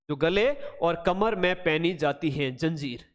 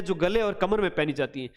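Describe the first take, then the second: First: Measured dictation of "गले और कमर में", word by word. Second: Said in the usual way. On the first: Shown as a demonstration. Repeats it slowly for memorizing.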